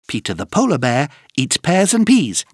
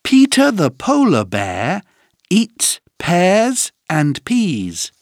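First: The sentence is said at a fast pace. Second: The sentence is said at a normal pace.

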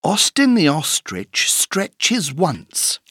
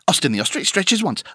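First: The sentence is said at a slow pace. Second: The sentence is said at a very fast pace. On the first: "Écoute bien cette phrase" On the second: "Encore plus vite"

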